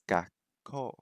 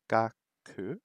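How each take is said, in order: First: The word ends in a held 'kko' sound. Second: The word ends in a short 'ku' sound. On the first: The speaker calls it right. "It's gakko" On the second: The speaker calls it wrong. "I was writing gaku"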